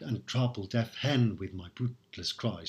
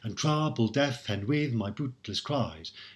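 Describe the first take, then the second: First: Stress falls naturally, breaking the even alternating beat. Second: Weak and strong syllables alternate in a strict beat. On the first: The speaker calls it right. "We say" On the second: The speaker calls it wrong. "we don't say"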